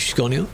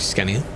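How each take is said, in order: First: The name is said with a Swedish pronunciation. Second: The name is said with an English pronunciation. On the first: "it's Swedish, so you should start saying it in a different way" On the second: "I just got used to saying Scania"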